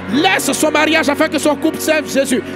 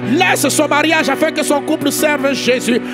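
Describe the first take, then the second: No difference in how they are said.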